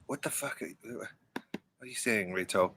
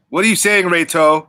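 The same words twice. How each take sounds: First: Very soft, low-key question; hushed, halting question to a friend; quiet asking. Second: Raised, higher-pitched question; pitched up to get an answer; insistent asking. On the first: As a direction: ask it under your breath. Asks Reto, first take, barely audible. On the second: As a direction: call the question over to a friend. Repeats the question to get Reto's answer. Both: Real, not acted.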